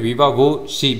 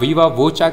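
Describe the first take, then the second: First: The second word ends with a 'shee' sound. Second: The second word ends with a 'cha' sound. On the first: "या फिर वीवा वो शी भी कह सकते हो" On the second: "इसे आप वीवा वोचा कह सकते हो"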